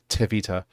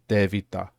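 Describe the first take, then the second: First: The first consonant has a puff of air. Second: The first consonant has no puff of air. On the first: The speaker calls it wrong. "rather than" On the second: The speaker calls it right. "no air coming out on the T"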